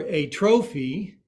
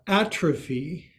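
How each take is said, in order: First: "a trophy" with a clear break after "a", stress on TRO; a trophy as two words. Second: "atrophy" stressed on the first syllable AT, run together as one word. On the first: Yoga teacher punning for the class, "a trophy" said as two words. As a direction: say "a trophy" as article plus noun, stressing TRO. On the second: Yoga teacher finishing the pun, "atrophy" stressed on AT. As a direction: hit the AT of "atrophy" and run the rest on. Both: Shown as a demonstration. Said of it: "Put the right emphasis on the right syllable".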